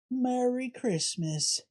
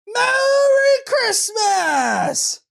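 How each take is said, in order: First: Soft, slow, hesitant Merry Christmas; timid greeting. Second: Very high, drawn-out, exultant Merry Christmas; joint triumphant shout. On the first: Shopper meekly returning the greeting to the cashier, quietly. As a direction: mumble it almost under your breath. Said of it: "Say it louder". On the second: Shopper and cashier shouting the greeting together in triumph. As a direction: scream it together like a victory cheer. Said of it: "And we both shouted". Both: Acted.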